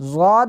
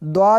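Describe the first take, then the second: First: The name begins with a z sound. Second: The name begins with a dw sound. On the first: "इसको ज़ाद भी पढ़ते हैं" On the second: "द्वाद भी पढ़ते हैं, दोनों तरह से पढ़ना दुरुस्त है"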